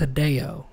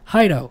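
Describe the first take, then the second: First: The name is said with three syllables. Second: The name is said with two syllables. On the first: The speaker calls it right. "no, it's Hideo" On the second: The speaker calls it wrong. "It's the way I'm looking at it's pronounced Hido"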